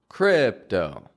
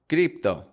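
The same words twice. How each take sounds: First: The vowels are longer and carried on the breath. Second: The vowels are short and quick. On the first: The speaker calls it right. "but more crypto" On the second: The speaker calls it wrong. "Getting the vowels really short and quick"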